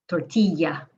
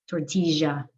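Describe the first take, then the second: First: The double L sounds like an English y. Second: The double L sounds like a zh. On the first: This is how most Spanish speakers say it. "the double L sounds like y" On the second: This is how speakers from Argentina say it. "It's just more like a zh"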